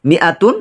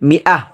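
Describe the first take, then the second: First: The word ends with a full 'tun' syllable. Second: The word ends with a soft 'h' sound. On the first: The word is read on without stopping. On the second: The reader stops on the word.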